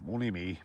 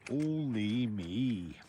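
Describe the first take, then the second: First: Said in the usual way. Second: Slow, drawn-out rueful only me; slow self-pitying groan of only me; rueful sigh. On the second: Real, not acted. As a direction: stretch it out, feeling sorry for yourself. Self-pitying after falling again.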